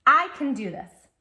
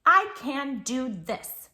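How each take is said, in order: First: Loud, bright rallying repeat; strong encouraging call; louder affirmation. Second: Slow, firm, each word placed; slow steady self-affirmation; confident affirmation. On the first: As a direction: cheer it for the child to echo. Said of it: "Can you say that?". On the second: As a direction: say it like a promise to yourself. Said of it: "you can always answer with". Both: Shown as a demonstration.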